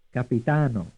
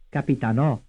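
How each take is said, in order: First: "Capitano" with the beat on TA; third-syllable stress. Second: "Capitanò" with the beat on NÒ; final-syllable stress. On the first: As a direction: draw out "ta" in "Capitano", ending lightly. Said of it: "stressed on the third syllable". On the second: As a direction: push the weight onto the last syllable of "Capitanò". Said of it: "stressed on the fourth syllable". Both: Shown as a demonstration.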